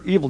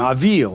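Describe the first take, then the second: First: The first vowel sounds like 'ee' in 'evil'. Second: The first vowel sounds like 'ah', not 'ee'. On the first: The speaker calls it wrong. "it looks like evil Merodach" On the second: The speaker calls it right. "but it's actually his name, Avil. It's not evil"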